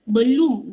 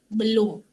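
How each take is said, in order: First: The last vowel sounds like 'u'. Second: The last vowel sounds like 'o'.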